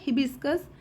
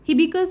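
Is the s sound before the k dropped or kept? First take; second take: kept; dropped. First: The s sound before the k is kept. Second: The s sound before the k is dropped. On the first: The speaker calls it right. "तो सही word होता है हिबिस्कस।" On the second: The speaker calls it wrong. "तो एस को खा जाते हैं।"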